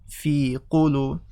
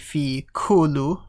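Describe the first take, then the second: First: Qulu starts with a deep back q sound. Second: Qulu starts with a plain front k sound. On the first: The speaker calls it right. "So say qu" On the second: The speaker calls it wrong. "Don't say fi kulu with a k"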